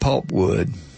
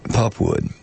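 First: The first syllable keeps its L sound. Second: The first syllable drops its L sound.

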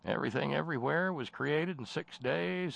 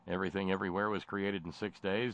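First: It is read in an imitated character voice. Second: It is read in the speaker's normal voice.

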